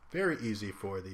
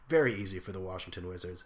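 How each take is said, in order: First: Words pushed out through a burp; "very easy for the" said with a burp. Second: Said in the usual way. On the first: Real, not acted. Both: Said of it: "excuse me for the burp there".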